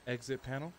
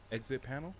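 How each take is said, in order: Both takes have the same delivery.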